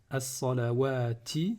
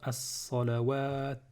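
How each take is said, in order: First: The word ends with a final vowel. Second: The word ends on a bare consonant. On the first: "sur ce mot-là" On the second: "si je m'arrête, je vais dire"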